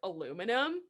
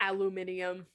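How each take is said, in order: First: The word is said the speaker's own usual way. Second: The word is said the South African way. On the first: ""How do you pronounce it?" I'm like" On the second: "I did not hear someone pronounce it that way until ... people from South Africa"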